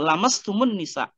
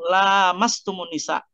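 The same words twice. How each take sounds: First: The vowel after the first l is short. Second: The vowel after the first l is long. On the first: It refers to skin touching skin. "Tapi bisa dibaca pendek" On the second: It refers to having intercourse with women. "bisa dibaca panjang lamnya"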